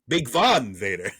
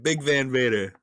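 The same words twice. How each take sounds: First: It is said in a Spanish accent. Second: It is said in a plain English accent.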